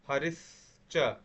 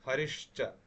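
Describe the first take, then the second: First: The consonant before 'cha' is a plain s sound. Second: The consonant before 'cha' is an sh sound.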